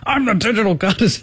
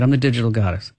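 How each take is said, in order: First: It is said forcefully, with angry conviction. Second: It is said hesitantly, without conviction.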